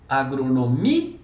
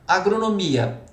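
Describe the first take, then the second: First: "Agronomia" devagar, com "mi" e "a" separados; hiato separado. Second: Said in the usual way. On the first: Shown as a demonstration. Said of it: "Não separou vogal?". ("Agronomia" escandida, destacando o hiato i-a) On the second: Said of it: "Por exemplo".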